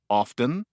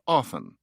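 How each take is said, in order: First: The word is said in its full form. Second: The word is said in a reduced form.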